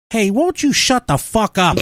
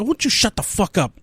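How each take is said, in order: First: Put-on higher, brash Boston accent; a stranger tells the anti-masker off in a Boston accent. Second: Put-on higher, brash Boston accent repeated; a Bostonian telling someone off; quoting the Boston stranger again in his accent. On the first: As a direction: bark it like a rude Bostonian. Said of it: "someone in a Boston accent walks up and goes". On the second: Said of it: "Boston accent".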